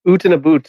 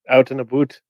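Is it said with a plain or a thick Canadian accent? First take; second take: thick Canadian; plain. First: It is said in a thick Canadian accent. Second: It is said in a plain accent.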